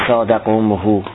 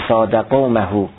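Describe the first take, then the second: Both takes have the same delivery.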